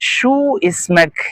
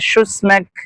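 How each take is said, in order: First: The two words are said separately. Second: The two words are run together as one.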